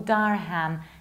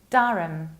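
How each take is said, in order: First: The ending is a full 'ham' with H. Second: The H is dropped in the ending. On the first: The speaker calls it wrong. "ham is not pronounced like ham" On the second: The speaker calls it right. "You need to drop H"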